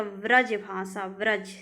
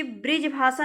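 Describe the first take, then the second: First: व्रज भाषा with "vraj", then व्रज alone; correct pronunciation. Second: ब्रिज भाषा quickly, with "brij"; wrong pronunciation. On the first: Teacher correcting students, व्रज भाषा as "vraj". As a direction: say v and short a in व्रज. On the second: Teacher showing students the error, ब्रिज भाषा as "brij". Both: Shown as a demonstration. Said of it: "ब्रिज भाषा नहीं होता".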